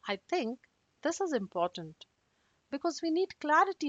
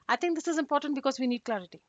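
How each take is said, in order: First: It is said slower with pauses. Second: It is said fast with no pauses. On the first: The speaker sounds controlled. The speaker calls it right. "tone down and pause a bit" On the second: The speaker sounds unfriendly. The speaker calls it wrong. "I'm going to read it really fast"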